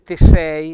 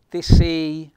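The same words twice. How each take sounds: First: The E in sei sounds open. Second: The E in sei sounds closed. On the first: The speaker calls it wrong. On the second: The speaker calls it right.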